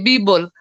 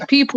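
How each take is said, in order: First: The word starts with a B sound. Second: The word starts with a P sound. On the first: "they say" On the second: "if they say"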